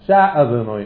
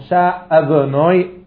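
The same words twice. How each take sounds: First: The aleph after the first consonant is swallowed. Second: The aleph after the first consonant is clearly heard. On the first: The speaker calls it wrong. "לא שאדנוי אלוהו" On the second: The speaker calls it right. "שומעים את האלף"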